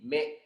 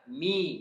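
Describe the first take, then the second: First: The vowel sounds like e, not kasrah. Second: The vowel is a clear kasrah i sound. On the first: The speaker calls it wrong. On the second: The speaker calls it right. "Harus kita merasa udah kita ke bawah"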